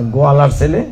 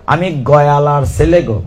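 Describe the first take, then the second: First: Said in the usual way. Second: গয়ালার said as go-ya-lar, village dialect, slow; village pronunciation. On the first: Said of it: "মানে গোয়ালার ছেলে". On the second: Retold or imitated. Cowherd boy naming himself in village speech, গয়ালার. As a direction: say গয়ালার with the rustic ya sound, drawn out. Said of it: "উচ্চারণটা বলেছিল".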